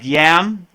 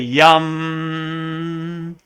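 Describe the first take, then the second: First: The vowel sounds like the a in cat. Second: The vowel sounds like the u in cup. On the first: The speaker calls it wrong. "So the next one looks like yam" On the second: The speaker calls it right. "but it's really yum"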